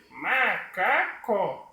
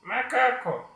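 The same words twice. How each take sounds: First: High puppet voice saying "macaco" as ma... ca... co; slow, high puppet, three separate syllables. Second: High puppet voice saying "macaco" in one quick run; high puppet, syllables run together; unseparated puppet speech. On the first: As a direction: stretch each syllable in a squeaky puppet voice. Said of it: "ele vai abrir a boca três vezes". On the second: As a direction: say "macaco" straight through as the puppet, without breaks. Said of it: "e não assim". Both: Shown as a demonstration.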